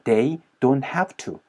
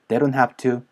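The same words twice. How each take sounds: First: It is said slowly, words kept separate. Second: It is said fast, words linked together.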